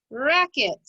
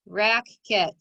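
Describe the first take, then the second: First: "racket" blended quickly into one joined word; said fast. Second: "racket" split into rack, then ket, with a gap; syllable by syllable. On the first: Teacher showing pupils the finished word, said fast. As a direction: run both syllables of "racket" together without a gap. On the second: Teacher breaking the code for pupils, syllable by syllable. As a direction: say "racket" slowly in two separate syllables. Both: Shown as a demonstration. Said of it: "Say it fast".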